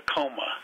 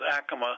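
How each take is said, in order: First: It is pronounced the way Denver locals say it. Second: It is pronounced the way New Mexico locals say it. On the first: This is how people in Denver say the name. The speaker calls it wrong. "Here we pronounce it Acoma" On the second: This is how people at the pueblo say the name. The speaker calls it right. "down there they pronounce Acoma"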